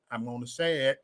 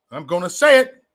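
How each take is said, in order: First: Low and much softer; hushed, lower-pitched lead-in; quiet announcement. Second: Full-voiced, committed announcement; firm repeat. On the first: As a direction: say it under your breath. Hesitant first take before opinion. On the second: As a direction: SAY brought up to full voice. Repeats it more firmly. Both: Real, not acted.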